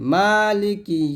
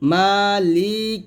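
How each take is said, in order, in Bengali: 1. li অংশটি দ্রুত ও ছোট করে বলা হয়। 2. li অংশটি লম্বা করে টানা হয়। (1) "লিকি তাড়াতাড়ি" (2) "এরকম লি তো টান দেই"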